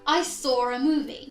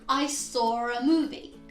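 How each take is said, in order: First: It is said at a normal speed. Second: It is said a little more slowly. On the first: "listen to this sentence" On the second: "A little bit slower"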